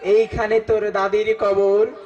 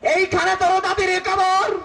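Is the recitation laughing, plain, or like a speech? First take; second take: plain; speech. First: It is recited in a plain, natural poetic manner. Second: It is declaimed like a politician's rousing speech. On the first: Someone recites the poem sincerely. "Naturally কবিতা আবৃত্তি করতে আইছে" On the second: A political leader recites the poem. "নেতা আসছে কবিতা আবৃত্তি করতে"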